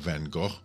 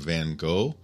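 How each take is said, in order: First: The name is said with a Dutch accent. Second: The name is said with an American English accent.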